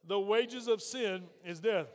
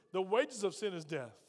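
First: Slow, measured recitation of "The wages of sin is death"; out loud together. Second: Said in the usual way. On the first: Shown as a demonstration. Preacher leading congregation to say it with him, slow and deliberate. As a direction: stretch "wages of sin is death" for a crowd to follow. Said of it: "Say it with me out loud". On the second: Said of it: "Can y'all say that with me?".

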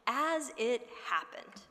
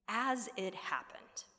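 First: "as it happened" drawn out slowly, each word weighted; slow stress on AS. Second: Said in the usual way. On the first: Shown as a demonstration. Preacher dwelling on the phrase, slow and weighted. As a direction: lean slowly on "as it happened" with AS on top. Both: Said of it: "Look at that phrase".

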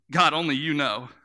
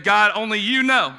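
First: Said in the usual way. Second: Louder, higher prophet's answer; preacher repeating Ezekiel's reply with force; emphatic reply. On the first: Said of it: "he says". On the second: Retold or imitated. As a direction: proclaim the humble answer.

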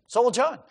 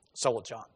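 First: "So will John" lifted higher, rising on "John"; emphatic restatement. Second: "So will John" dropped low and soft; soft aside. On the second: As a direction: murmur "So will John" to yourself. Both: Acted. Repeats phrase, contrasting takes.

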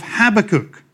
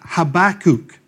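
First: "Habakkuk" stressed on the first syllable; speaker's usual pronunciation. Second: "Habakkuk" stressed on the second syllable; alternative pronunciation. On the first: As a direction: say "Habakkuk" as HAB-a-kook. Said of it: "I always call it Habakkuk". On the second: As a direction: attempt "Habakkuk" as ha-BAK-kook. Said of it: "Just can't do it, sorry". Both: Shown as a demonstration.

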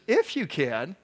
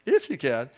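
First: "If you can" thrown back with a rising, questioning tune; challenging echo. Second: "if you can" repeated lower, with a falling tune; challenging repeat. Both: Acted. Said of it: "he kinda challenges him".

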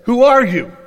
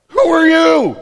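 First: Loud startled question; jolted awake, demand it. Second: High loud startled yelp; freaked-out yelp. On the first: Boaz waking to a woman at his feet, loud startled question. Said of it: "the man was startled". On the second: Boaz freaking out at a stranger, high startled yelp. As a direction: squeal it like you're terrified. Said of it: "he just freaks out for a minute". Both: Retold or imitated.

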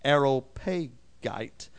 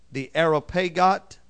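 First: "Areopagite" ending in a long-i "gite"; "Areopagite" as air-oh-PAY-gite, drawn out; alternative pronunciation. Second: "Areopagite" with a short last syllable like "got"; "Areopagite" as air-oh-PAY-got; first pronunciation. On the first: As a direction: say "Areopagite" slowly, last syllable rhyming with "kite". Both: Shown as a demonstration. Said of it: "or Areopagite".

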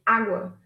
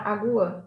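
First: Água stressed on open "á", falling; stress on first syllable. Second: Agua stressed on "gu", as a-GU-a; wrong stress on "gu". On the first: Teacher correcting the stress, "água" stressed on Á. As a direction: say "água" as A-gwa. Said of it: "'cause the stress is here". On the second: Teacher showing how it could sound, "agua" stressed on GU. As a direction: say "agua" in three syllables, a-GU-a. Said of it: "Otherwise, it could sound". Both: Shown as a demonstration.

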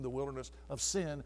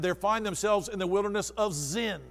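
First: "sin" with a plain s sound. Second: "Zin" with a buzzing z sound. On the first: Preacher naming the first wilderness, "sin" with s. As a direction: say "sin" with a hissed s, not a z. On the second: Preacher contrasting the second wilderness, "Zin" with z. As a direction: stress the z in "Zin" so it isn't "sin". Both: Shown as a demonstration. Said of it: "with a, with a Z".

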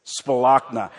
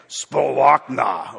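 First: Said in the usual way. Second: "Spalachna" heaved slowly and loudly from the gut. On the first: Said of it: "say that with me". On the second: Shown as a demonstration. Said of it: "from way down in your gut".

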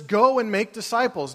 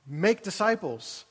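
First: "Go" punched up front in "Go and make disciples"; "Go" stressed first, then "and make disciples" runs on. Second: "Make disciples" said slowly, with the weight on "Make"; "Make disciples" slow and deliberate, with stress on "Make". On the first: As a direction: hit the word "Go" hard. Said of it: "we put the emphasis on the go". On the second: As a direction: lean on "Make" and draw out "Make disciples". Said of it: "but the emphasis on the make disciples". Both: Shown as a demonstration.

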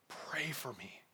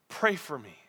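First: Much softer, earnest plea; quiet appeal. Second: Said in the usual way. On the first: Acted. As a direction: drop to a hushed, heartfelt request. First, hushed take of the appeal.

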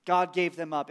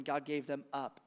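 First: Said in the usual way. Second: Softer, grave God gave them up; hushed. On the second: Shown as a demonstration. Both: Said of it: "reminds us time and time".

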